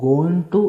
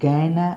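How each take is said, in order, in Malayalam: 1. ഇത് രണ്ട് വേറെ വാക്കുകളായി പൂർണ്ണമായി പറയുന്നു. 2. ഇത് ഒരു ചെറിയ വാക്കായി ചുരുക്കി പറയുന്നു. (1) "ഗോയിങ് ടു എന്നതിന് പകരം" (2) "ഗാന എന്നാണ് ഉപയോഗിക്കുന്നത്"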